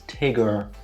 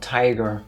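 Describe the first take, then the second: First: The first vowel is short, as in 'big'. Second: The first vowel is long, as in 'tie'. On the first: The speaker calls it right. "The name is Tigger" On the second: The speaker calls it wrong. "It's not Tiger"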